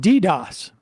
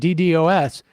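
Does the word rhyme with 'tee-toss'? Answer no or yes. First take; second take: yes; no. First: It rhymes with tee-toss. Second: It does not rhyme with tee-toss. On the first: The speaker calls it right. "Rhymes with T-toss" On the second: The speaker calls it wrong. "instead of pronouncing it DDoS"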